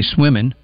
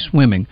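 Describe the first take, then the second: First: The ending is said as 'in' without g. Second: The ending is said fully as 'ing'. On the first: The speaker calls it wrong. "You don't say swimming" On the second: The speaker calls it right. "you say swimming"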